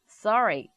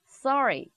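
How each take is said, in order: First: It is said with a rolled American-style accent. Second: It is said with a rolled American-style accent.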